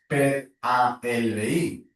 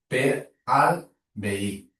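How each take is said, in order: First: The words 'a' and 'el' are said separately. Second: The words 'a' and 'el' merge into 'al'. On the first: The speaker calls it wrong. "tu no dius" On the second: The speaker calls it right. "sinó que tu dius"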